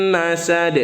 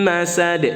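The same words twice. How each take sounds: Both takes have the same delivery.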